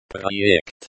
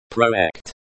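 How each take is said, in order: First: "Projekt" said with a Russian r, pra-YEKT; Russian pronunciation. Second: "Projekt" in English sounds, pro-EKT; anglicized pronunciation. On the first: Language teacher showing learners the pronunciation, Russian "Projekt". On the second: Language teacher showing learners the pronunciation, anglicized "Projekt". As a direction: read "Projekt" like an English transliteration. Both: Shown as a demonstration.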